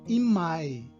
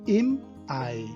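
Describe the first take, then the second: First: The two words run together without a catch. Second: A glottal catch separates the two words. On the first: The speaker calls it wrong. "e não imai" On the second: The speaker calls it right. "pronunciado im Ei"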